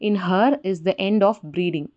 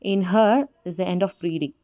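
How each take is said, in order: First: Every syllable gets equal stress, like ordinary speech. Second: Only some syllables are stressed, in a metrical beat. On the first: It is read as normal free verse. "எல்லாத்துக்குமே வந்து நம்ம இன்டர்நேஷன் கொடுக்குறோம், stress கொடுக்குறோம்" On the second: It follows a fixed poetic meter. "சில வேர்டுக்கு இன்டர்நேஷன் கொடுப்பாங்க, சில வேர்டை கொடுக்க மாட்டாங்க"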